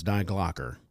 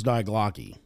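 First: "Glocker" ending in an er sound; corrected pronunciation. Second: "Glocky" ending in an ee sound; mistaken pronunciation. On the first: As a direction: say "Glocker" with a final er. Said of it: "That's how you pronounce it". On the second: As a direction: say "Glocky" with a final ee. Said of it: "I thought it was Die Glocky". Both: Shown as a demonstration.

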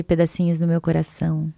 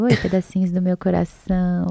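First: Said in the usual way. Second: Lightly sweet, cutesy hello; cute greeting. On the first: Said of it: "Eu falo". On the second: Acted. YouTuber greeting her followers, cute and affectionate. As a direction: greet them with a touch of cuteness. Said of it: "Porque é bem, tipo, fofinho".

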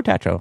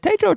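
First: Tatro said TAT-ro; second option, Tatro with the vowel of "cat"; short-a pronunciation. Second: Tatro said TAY-tro; first option, Tatro with the vowel of "day"; long-a pronunciation. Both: Retold or imitated. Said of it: "Every time we met, I said".

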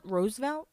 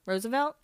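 First: Roosevelt as two syllables, ROSE-velt, softer; trying out pronunciation. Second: Roosevelt as three syllables, ROSE-uh-velt, rising; trying out pronunciation. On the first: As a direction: quietly test "Roosevelt" as ROSE-velt, rising. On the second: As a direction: test "Roosevelt" with an uh in the middle. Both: Shown as a demonstration. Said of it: "Should I say it one more time".

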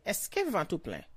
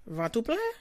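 First: Said in the usual way. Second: Rising question on "plein", pitched higher; question tune. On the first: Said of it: "Automatically a question". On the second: Shown as a demonstration. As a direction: lift "Ventre plein?" up at the end like asking. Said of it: "Like a question".

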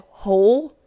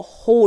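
First: Said in the usual way. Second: Whole with a drawled Southern vowel and a dropped L. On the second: Real, not acted. Podcaster slipping into a Southern whole after a weekend away. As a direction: let the L slip away in whole, Alabama-style. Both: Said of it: "I just said whole instead of whole".

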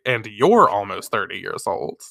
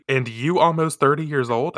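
First: "you're" stressed as the fix, falling at the end; corrected reading. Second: "you" read as printed, questioning rise at the end; reading the typo. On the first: Reader corrects the publisher's typo, pointed corrected read. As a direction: lean on "you're", finish with a firm fall. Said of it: "It should say". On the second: Reader catches a typo in the book, puzzled questioning read. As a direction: read "you" literally, ending in a doubtful rise. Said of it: "That's a typo". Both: Shown as a demonstration.

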